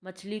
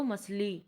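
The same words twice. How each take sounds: First: Said in the usual way. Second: Second मछली mispronounced as masli; मछली said "mas-lee"; chha turned sibilant. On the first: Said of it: "छा को क्या समझते हैं". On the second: Shown as a demonstration. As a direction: swap the chh in मछली for an s. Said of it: "शा कहते हैं".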